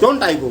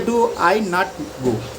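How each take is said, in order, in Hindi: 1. डू और नॉट मिलकर एक छोटा शब्द बन जाते हैं। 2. डू और नॉट अलग-अलग पूरे शब्दों की तरह बोले जाते हैं।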